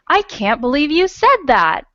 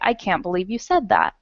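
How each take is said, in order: First: It is said in a loud, excited voice. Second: It is said in a calm, even voice. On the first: A strong exclamation. "they would read it like this" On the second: A plain statement. "if this right here were a period"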